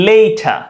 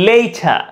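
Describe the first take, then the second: No difference in how they are said.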